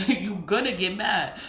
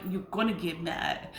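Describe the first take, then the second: First: Laughing through the words; chuckling as she repeats it. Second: Said in the usual way. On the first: Real, not acted. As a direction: say it amused, with a laugh. Same line repeated, second laughing.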